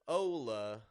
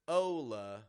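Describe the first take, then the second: First: An American accent with strong, drawn-out vowels. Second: The same.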